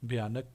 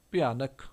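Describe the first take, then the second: First: ਭਿਆਨਕ said the Hindi way, voiced bh like bhayanak; Hindi pronunciation. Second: ਭਿਆਨਕ said the Punjabi way, tonal first syllable like pianak; Punjabi pronunciation. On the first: (ਭਿਆਨਕ ਹਿੰਦੀ ਉਚਾਰਨ ਨਾਲ, ਸਾਫ਼ ਭ ਦੀ ਆਵਾਜ਼) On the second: (ਭਿਆਨਕ ਪੰਜਾਬੀ ਉਚਾਰਨ ਨਾਲ, ਪਹਿਲੇ ਅੱਖਰ 'ਤੇ tone) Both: Shown as a demonstration. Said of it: "Hindi ਵਿੱਚ ਉਚਾਰਨ".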